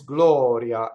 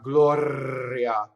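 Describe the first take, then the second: First: The R is a single quick flap. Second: The R is a trilled, rolled sound. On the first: The speaker calls it right. "what I mean by flipped is gloria" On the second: The speaker calls it wrong. "not gloria. That rolled R is not right in this word"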